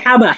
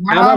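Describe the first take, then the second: First: It is said with an Arabic-style h sound. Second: It is said with a Bengali-style h sound. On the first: The speaker calls it right. "বলতে হবে হাবা" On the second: The speaker calls it wrong. "হাবা বলা যাবে না"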